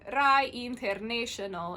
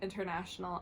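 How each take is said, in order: First: It is said with an Italian accent. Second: It is said with an English accent.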